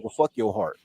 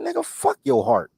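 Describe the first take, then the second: First: Hushed, whispered echo; inner voice whisper. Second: High, incredulous shout; reenacting yelling at a crying friend; wild yell. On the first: Retold or imitated. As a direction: whisper it like a voice in your head. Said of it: "all I heard in my head was". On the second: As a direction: bark it at your heartbroken friend. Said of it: "bro, I was wilding".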